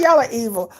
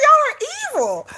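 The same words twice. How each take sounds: First: Said in the usual way. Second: Shrill-high mock outrage, pitched way up; high exasperated accusation. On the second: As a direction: squeal it like you're betrayed. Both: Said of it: "I was like".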